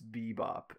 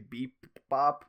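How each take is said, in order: First: The syllables run together smoothly without a break. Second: The syllables are split, the first one drawn out. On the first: The speaker calls it right. "but it's bebop" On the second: The speaker calls it wrong. "it sounds like you say beep bop, like with two P's"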